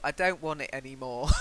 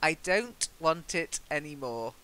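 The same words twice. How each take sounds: First: The final T sounds are dropped. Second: The final T sounds are clearly pronounced. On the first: "if you visit Nottingham, by all means go" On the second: "it's best to end with T"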